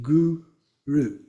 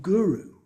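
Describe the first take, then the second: First: "guru" split as goo, then roo; divided syllables. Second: Said in the usual way. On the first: Shown as a demonstration. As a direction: pause in the middle of "guru". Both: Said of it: "just divide it".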